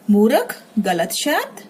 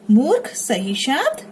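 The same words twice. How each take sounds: First: मूर्ख said as "murakh" with an extra vowel; मूर्ख with a full र; wrong version. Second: मूर्ख said as "moorkh" with a half र; मूर्ख, r closing the first syllable; right version. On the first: (मूर्ख को "मुरख" जैसा गलत बोलें) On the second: (मूर्ख को "मूर्ख" सही बोलें) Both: Shown as a demonstration.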